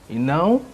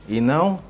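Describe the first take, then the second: Both takes have the same delivery.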